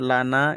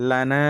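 First: Said in the usual way. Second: লানা with the final "naa" drawn out long; madd stretch on লানা. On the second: Shown as a demonstration. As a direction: hold the last vowel of লানা for three beats. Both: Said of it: "তিন আলিফ টানতে হবে".

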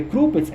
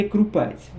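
First: «Крупець» with stress on the first syllable, У. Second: «Крупець» with stress on the last syllable, Е; stress on second syllable. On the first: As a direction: hit the opening syllable of «Крупець». («Крупець» з наголосом на першому складі) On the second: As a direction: hit the final syllable of «Крупець». («Крупець» з наголосом на другому складі) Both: Shown as a demonstration. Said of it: "по-іншому наголос був".

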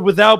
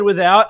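First: Said in the usual way. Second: Put-on "without" slipped into an Australian accent. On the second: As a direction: say "without" with Aussie vowels. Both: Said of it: "You said without with an Australian accent".

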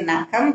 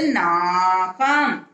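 First: நகம் with a short first "a"; short vowel. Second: நாகம் with the first "aa" held long; long vowel. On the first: (நகம் குறிலாக, குறுக்கி) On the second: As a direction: stretch the opening vowel of நாகம். (நாகம் நெடிலாக, நீட்டி) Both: Shown as a demonstration. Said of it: "அதுக்கு துணைக்கால் போட்டு".

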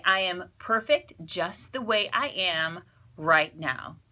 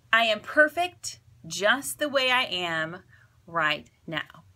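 First: Calm mantra. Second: Calm mantra again. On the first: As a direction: say it gently, like a promise to yourself. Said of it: "You can say". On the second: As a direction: gently lead the listener through it. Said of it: "So say it with me". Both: Shown as a demonstration.

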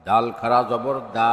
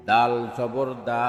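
First: Final "দা" held long; drawn-out vowel. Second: Final "দা" cut short; quick short vowel. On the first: Teacher demonstrating khara jabar, long "দা". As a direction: stretch the last "দা" for one alif. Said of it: "একালিপ টেনে পড়তে". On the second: Teacher demonstrating normal jabar, short "দা". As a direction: keep the last "দা" brief, not held. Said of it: "তাড়াতাড়ি করতে হয়". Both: Shown as a demonstration.

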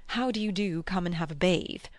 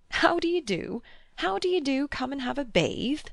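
First: Mock lady's greeting. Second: Chuckling. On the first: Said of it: "Can you picture a lady". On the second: A narrator's reading. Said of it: "he chuckled".

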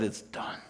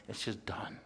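First: Soft breathy whisper, letting it go; whispered forgiveness. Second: Barely voiced, softer whisper; whispered release. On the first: Acted. Forgiving someone in acted quote. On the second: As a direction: let "just done" fall away in a whisper. Closing the forgiveness thought.

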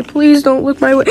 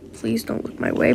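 First: Said in the usual way. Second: Breathy unvoiced whisper, much softer. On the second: Character begging not to be noticed, whispered. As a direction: whisper it so nobody notices you. Same line read twice.

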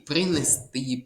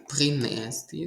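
First: Принести stressed on final ТИ; stress on last syllable. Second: Принести stressed on the middle syllable, НЕ; wrong stress. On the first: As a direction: say принести as принесТИ, leaning on the ending. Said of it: "Наголос повинен бути на останній склад". (наголос на останньому складі: принесТИ) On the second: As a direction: say принести as приНЕсти, leaning on the second syllable. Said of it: "неправильно наголос стоїть у слові принести". (наголос на другому складі: приНЕсти) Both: Shown as a demonstration.

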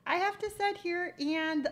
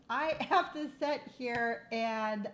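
First: "sit" stressed, the phrase raised a bit; emphatic restart. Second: "have" drawn out around a laugh; laughing through words. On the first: Telling Rose about hot flashes, emphatic. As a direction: restart firmly, leaning on "sit". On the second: Telling Rose about hot flashes, laughing. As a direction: laugh mid-sentence, slowed. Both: Real, not acted.

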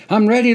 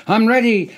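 First: Louder, higher manic scream ending up; scream, rising. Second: High, loud manic scream. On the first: Soldier faking madness, screaming louder. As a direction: push the second one even harder. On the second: Soldier faking madness in line, screaming. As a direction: yell it like you're crazed. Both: Acted. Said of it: "I screamed".

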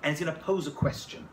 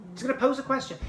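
First: Said in the usual way. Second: He's gonna pose a question, pitched high and louder with pose leaned on; emphatic repeat, stress on pose. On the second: Shown as a demonstration. Storyteller repeating the setup for effect, stressing pose.

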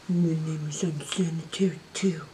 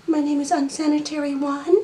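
First: Low soft silly pet voice. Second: Pet voice. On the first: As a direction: voice the second pet low and quiet. Voicing other pet, low. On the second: Voicing pet, higher. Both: Pretend.

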